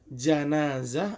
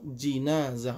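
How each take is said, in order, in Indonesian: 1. Suku kata pertama memakai vokal a. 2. Suku kata pertama memakai vokal i. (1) "dengan fathahnya jim" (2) "dengan mengkasrahkan jim"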